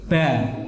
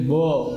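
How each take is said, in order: First: The letter is said with a light, open vowel. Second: The letter is said with a heavy, rounded vowel. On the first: The speaker calls it right. "tapi ba" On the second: The speaker calls it wrong. "nggak boleh bo"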